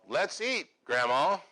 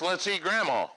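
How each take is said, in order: First: There is a pause before 'grandma'. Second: There is no pause before 'grandma'.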